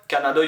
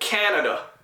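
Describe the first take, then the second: First: The word is said flat, without stressed syllables. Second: The stress falls clearly on the first syllable. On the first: The speaker calls it wrong. "in French, we don't stress syllables. Words are just flat" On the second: The speaker calls it right. "Emphasis, stress on the first syllable"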